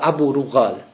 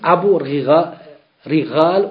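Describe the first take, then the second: First: The vowel after the R sounds like u. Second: The vowel after the R sounds like i. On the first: "Damma drunter" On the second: "Kasra drunter"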